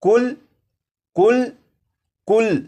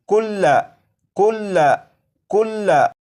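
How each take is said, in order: First: The word ends on the l, with no vowel. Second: The word ends with a short a vowel. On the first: The reader stops on this word. "वक्फ में पढ़ेंगे तो लाम के ऊपर जो जबर है इस जबर को नहीं पढ़ेंगे" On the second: The word is read as written, without stopping. "ये लफ्ज लिखा है कुल्ला"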